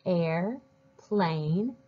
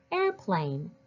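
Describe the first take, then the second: First: "air", pause, "plane"; split into parts. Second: Said in the usual way. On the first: Shown as a demonstration. Teacher leads readers along, splitting the word into parts. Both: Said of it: "Do it with me".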